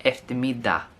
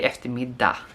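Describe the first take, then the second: First: The final G sound is dropped. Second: The same.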